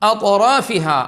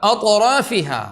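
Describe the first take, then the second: No difference in how they are said.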